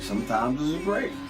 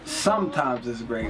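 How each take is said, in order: First: The stress falls on great, not sometimes. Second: The stress falls on sometimes, not great.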